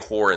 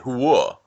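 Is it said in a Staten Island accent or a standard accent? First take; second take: standard; Staten Island. First: It is said in a standard, non-Staten Island accent. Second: It is said in a Staten Island accent.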